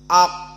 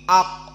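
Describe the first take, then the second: Both takes have the same delivery.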